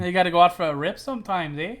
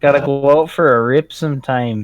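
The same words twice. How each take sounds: First: Imitating Canadian accent with eh; mock Canadian, ending on eh. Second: Slight Canadian accent on rip; a hint of Canadian speech. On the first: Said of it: "your Canadian accent". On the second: Real, not acted. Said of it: "I just heard your Canadian accent come out".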